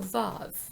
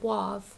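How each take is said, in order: First: The word begins with a V sound. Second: The word begins with a W sound. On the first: The speaker calls it right. "So Vav is the pronunciation" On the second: The speaker calls it wrong. "they don't pronounce it Wav"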